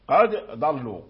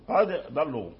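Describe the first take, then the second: First: The d is pronounced separately before the next consonant. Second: The d is pronounced separately before the next consonant.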